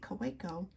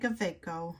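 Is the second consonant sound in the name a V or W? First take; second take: W; V. First: The second consonant is pronounced as a W. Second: The second consonant is pronounced as a V. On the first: This is the speaker's own American English way. "I never use the V when I say Coleco" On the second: Other people say it this way. "I know a lot of people say Kaweco"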